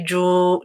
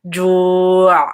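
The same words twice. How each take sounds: First: The sound after ju is cut short. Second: The sound after ju is held long. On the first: The speaker calls it wrong. "Don't say ju" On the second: The speaker calls it right. "You have to make it quite long"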